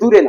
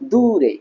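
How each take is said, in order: First: The u vowel is said short. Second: The u vowel is said long. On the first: The speaker calls it wrong. "নয়" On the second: The speaker calls it right. "দীর্ঘ উকার"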